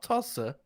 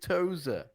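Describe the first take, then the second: First: The middle consonant is a hissing s sound. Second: The middle consonant is a buzzing z sound. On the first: The speaker calls it wrong. "not Tosser" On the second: The speaker calls it right. "is Tozer"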